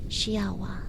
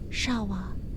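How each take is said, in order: First: An 'ee' sound follows the first consonant. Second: The first consonant runs straight into 'a'. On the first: The speaker calls it wrong. "and not shiawa" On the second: The speaker calls it right. "this word is pronounced shawa"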